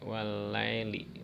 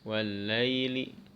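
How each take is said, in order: First: The vowel in 'lai' becomes a flat e sound. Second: The vowel in 'lai' glides toward an i sound. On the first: The speaker calls it wrong. "lai jadi e" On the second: The speaker calls it right. "mengayunnya ke vokal i"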